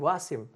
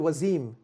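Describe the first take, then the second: First: The name is said the Indian way. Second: The name is said the American way. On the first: "You go to India, they call me Wasim" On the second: "I come to America, they say to me, they call me Wazim"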